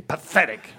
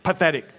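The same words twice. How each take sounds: First: Loud, scornful emphasis; disdain. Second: Said in the usual way. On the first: Shown as a demonstration. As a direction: spit it out with disdain. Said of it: "say it with some disdain". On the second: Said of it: "Say the word pathetic".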